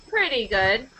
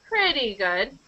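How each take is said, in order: The two takes are said the same way.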